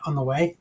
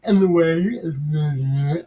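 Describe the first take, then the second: First: Said in the usual way. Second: In the way stretched very slow and odd; drawn-out goof. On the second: Pretend. Host correcting himself, then drawls in the way very slowly. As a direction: drag in the way out slowly, playing silly. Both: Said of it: "having a moment there".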